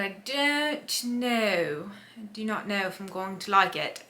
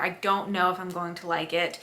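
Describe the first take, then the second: First: Slight slip into a British accent. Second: Said in the usual way. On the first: Real, not acted. Vlogger doubting the book she started, slipping into a British accent. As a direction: drift into a British accent, drawing out the first words. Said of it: "I just slipped into a British accent". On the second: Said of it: "slipped into a British accent there".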